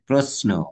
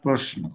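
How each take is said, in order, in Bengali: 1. মধ্যের ব্যঞ্জনটি সাধারণ 's' ধ্বনি। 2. মধ্যের ব্যঞ্জনটি 'sh' ধ্বনি। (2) "নট প্রশ্ন"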